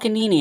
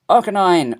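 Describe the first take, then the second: First: The name ends with a 'nee-nee' sound. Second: The name ends with a 'nine' sound.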